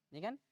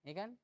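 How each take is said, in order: The two takes are said the same way.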